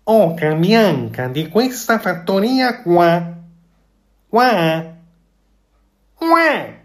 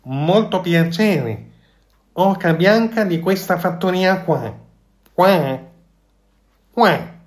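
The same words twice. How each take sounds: First: Louder, high goose greeting, last qua leaping up; more convinced goose. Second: High, slow goose voice ending in quacks; goose tries a grand greeting. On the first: The goose repeats her greeting to please the fox, louder and surer. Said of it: "ripeté con più convinzione". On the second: The goose copies the fox's greeting, high and honking. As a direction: clear your throat and try to sound important. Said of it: "schiarendosi la voce provò". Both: A narrator's reading.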